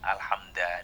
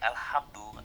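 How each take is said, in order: First: The word ends in a short a vowel. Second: The word ends in a short u vowel. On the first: "dibaca dengan harokat fathah" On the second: "dibaca dengan domah"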